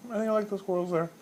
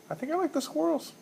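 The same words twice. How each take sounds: First: Said in the usual way. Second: Jokey high-voiced take on the pick; a sudden high squeak; squeaky high. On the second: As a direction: pick said in a much higher squeaky voice.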